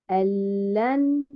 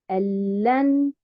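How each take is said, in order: No difference in how they are said.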